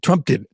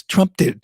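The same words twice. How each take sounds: First: Said in the usual way. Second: A mocking higher Trump did it, Trump hit hard; mock Biden defender. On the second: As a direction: parody the excuse with a sneer. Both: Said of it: "we just have to be done with this".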